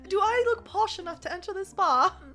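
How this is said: It is said in a put-on accent. The speaker calls it wrong. "should I just drop the accent?"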